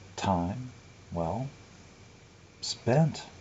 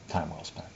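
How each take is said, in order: First: There are pauses around the word well. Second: The words run together without pauses. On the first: The time was merely used up, not usefully. "It was time, well, spent" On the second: The time was used worthwhile. "I wouldn't say it was time well spent"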